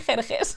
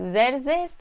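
First: The name is said with a Persian pronunciation. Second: The name is said with an English pronunciation. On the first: The speaker calls it right. "I'm going to say with the Persian pronunciation" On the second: The speaker calls it wrong. "That is so ugly"

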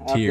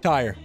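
First: The name sounds like the word tier. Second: The name sounds like the word tire. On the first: The speaker calls it right. "There it is" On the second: The speaker calls it wrong. "Am I pronouncing that correctly, sir? Not at all"

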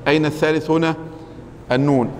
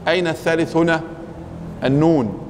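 The two takes are said the same way.

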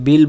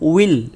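First: The word begins with a b sound. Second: The word begins with a rounded w sound. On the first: The speaker calls it wrong. "আমরা অনেকে বিল বলে ফেলি" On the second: The speaker calls it right. "ইলও নয় আর বিলও নয়, তাহলে আমরা বলবো উইল"

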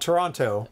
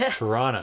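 First: The name is said in full with all consonants. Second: The name is squished quickly, dropping consonants. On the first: This is how outsiders say it. "not Toronto" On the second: This is how locals say it. "You got to take out all the consonants"

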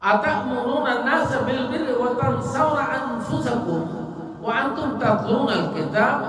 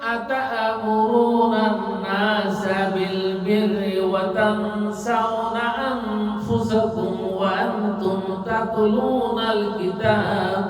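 First: It is recited plainly, without a song-like melody. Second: It is recited with a beautiful, song-like melody. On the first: The speaker calls it right. "কোরআন হবে আবৃত্তির সুরে" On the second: The speaker calls it wrong. "এই যে গানের সুরে সুন্দর করে পড়া"

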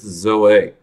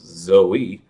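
First: It is pronounced the Greek way. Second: It is pronounced the usual English way. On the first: "but in Greek it's Zoe" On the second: "I know in English, anyone named that usually is Zoe"

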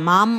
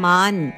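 First: The word ends with an m sound. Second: The word ends with an n sound. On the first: The speaker calls it wrong. "ಮಾಂ ಅಲ್ಲ" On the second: The speaker calls it right. "ನ ಅಕ್ಷರ ಮಾನ್"

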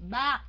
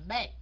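First: The vowel is said with the mouth wide open. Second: The vowel is said with the mouth less open. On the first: The speaker calls it right. "hả miệng rộng ra" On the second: The speaker calls it wrong. "chứ không phải là"

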